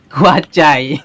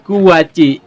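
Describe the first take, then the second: First: The word ends with an 'eye' vowel. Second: The word ends with an 'ee' vowel.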